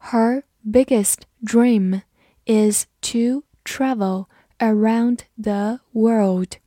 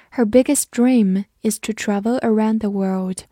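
First: Slow, carefully spaced words; slow model reading. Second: Said in the usual way. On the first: Shown as a demonstration. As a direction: read slowly, word by word, for learners to repeat. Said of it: "我们慢读一遍". (慢速逐词朗读) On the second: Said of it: "慢读一遍".

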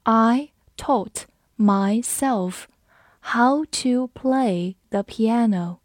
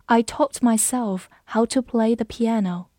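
First: Very slow, deliberate word-by-word delivery; slow reading. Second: Said in the usual way. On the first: Shown as a demonstration. Teacher models piano sentence for learners, slow reading. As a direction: stretch it out slowly with clear gaps. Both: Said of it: "我们慢读一遍".

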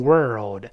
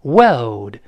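First: "world" with curled r before the dark l; American rhotic world. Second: "World" lower, no curled r; British non-rhotic world. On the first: Teacher contrasting with British, r-coloured "world". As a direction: curl the tongue firmly in "world". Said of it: "加卷舌了". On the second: Teacher contrasting with American, r-less "World". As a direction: say "World" with a flat tongue and dark l. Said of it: "就没有卷舌了". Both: Shown as a demonstration.

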